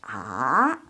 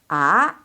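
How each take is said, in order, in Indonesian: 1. Nadanya turun dulu lalu naik lagi. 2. Nadanya naik dari tengah ke tinggi. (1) "turun terus naik" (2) "第二声阴平, 阳平"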